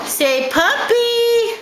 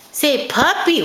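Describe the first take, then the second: First: Stretched-out puppy, higher and slow; slow modeling for baby. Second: Said in the usual way. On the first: Shown as a demonstration. Mother teaching her baby a word, slow and high. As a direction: draw out the word so the baby can copy.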